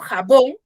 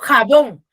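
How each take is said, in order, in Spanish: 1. El acento cae en la última sílaba. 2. El acento cae en la primera sílaba. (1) "yo digo jabón" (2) "yo no digo jabón"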